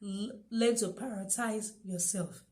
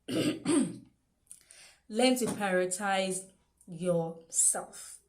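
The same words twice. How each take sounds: First: Said in the usual way. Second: Very slow, every word of "Learn to prioritize yourself" drawn out and stressed; emphasized slowly. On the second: Shown as a demonstration. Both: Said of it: "I keep emphasizing on that word".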